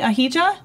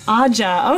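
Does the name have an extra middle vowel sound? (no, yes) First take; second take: yes; no. First: The name has an extra middle vowel sound. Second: The name has no extra middle vowel sound. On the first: The speaker calls it wrong. "I want to keep getting the I in there" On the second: The speaker calls it right. "it doesn't have any sound there"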